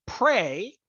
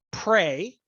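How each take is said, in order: First: Prey repeated with weight and a rise; prey repeated and emphasised; stress on prey again. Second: Prey said pointedly with a rise; prey lifted and set apart; stress on prey. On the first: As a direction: hit prey deliberately once more. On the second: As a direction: lean hard on prey. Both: Real, not acted. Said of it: "very intentionally using that word".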